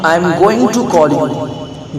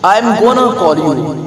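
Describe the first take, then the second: First: Going to is said fully as two words. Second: Going to is squeezed into one word, gonna. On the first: "I will call you की जगह" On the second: "गोइंग टू की जगह पर आप क्या use कर सकते हैं, गोना।"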